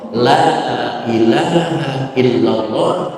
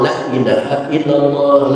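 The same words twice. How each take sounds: First: The vowel of 'la' is held long. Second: The vowel of 'la' is cut short. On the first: It denies any god except God. The speaker calls it right. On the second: It becomes an oath rather than a denial. The speaker calls it wrong.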